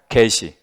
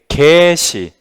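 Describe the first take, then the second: First: The first vowel is kept short. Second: The first vowel is drawn out long. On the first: "얘는 단음" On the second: "얘는 좀 장음으로 발음하셔야 돼. 좀 길게"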